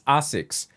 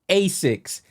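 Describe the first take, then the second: First: The name is said with Japanese pronunciation. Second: The name is said with American pronunciation. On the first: "the actual Japanese pronunciation is" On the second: "I always say the American pronunciation"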